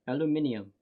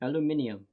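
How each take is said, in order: First: It is said with five syllables, British style. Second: It is said with five syllables, British style.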